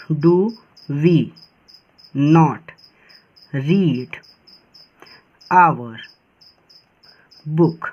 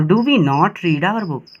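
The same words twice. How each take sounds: First: Each word spaced out with long pauses; slow dictation, a pause after every word. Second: The full sentence in one slow, careful run; slow read-through of the finished sentence; whole sentence read slowly. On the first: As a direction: dictate it one word at a time for copying. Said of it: "चलिए इसको do करते हैं". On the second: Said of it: "तो do we not read our book". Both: Shown as a demonstration.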